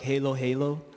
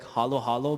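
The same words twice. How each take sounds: First: It is said with an American pronunciation. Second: It is said with a Filipino pronunciation. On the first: "people pronounce it in the U S like halo halo" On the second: "my favorite dessert in my culture is like halo halo"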